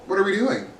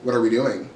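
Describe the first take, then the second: First: High-pitched exasperation; incredulous question. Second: Low-pitched, deadpan exasperation; exasperated question. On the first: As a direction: ask it high, in disbelief. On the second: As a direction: ask it low, as a weary reproach. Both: Real, not acted. Exasperated question, repeated two ways.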